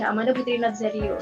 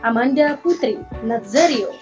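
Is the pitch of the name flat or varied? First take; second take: flat; varied. First: The name is said on a flat pitch. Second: The name is said with varied, swinging pitch. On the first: The speaker calls it wrong. "terlalu flat ya dibaca" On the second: The speaker calls it right. "kita mainkan intonasi kita dengan banyak intonasi"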